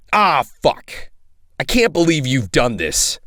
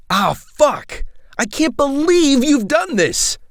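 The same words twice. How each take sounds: First: Said in the usual way. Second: Higher take. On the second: Acted. Retake of the same line, higher.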